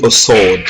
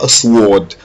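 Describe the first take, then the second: First: "sword" said as "sord" with no w sound; "a sword", the w left silent. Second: "sword" said "swod", the w pronounced; "a sword" with an audible w; w sounded wrongly. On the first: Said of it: "On dit a sword". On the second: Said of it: "On ne dit pas a sword". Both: Shown as a demonstration.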